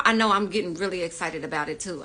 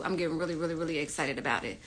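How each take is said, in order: First: Said in the usual way. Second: Hushed rapid repeat. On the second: Real, not acted. Host repeats excitement to chat.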